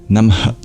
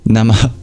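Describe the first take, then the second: First: The final syllable is an unvoiced breath out. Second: The final syllable is an unvoiced breath out.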